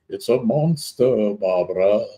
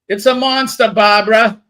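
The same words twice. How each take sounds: First: It is said in a Monster Mash voice. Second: It is said in a Boston accent.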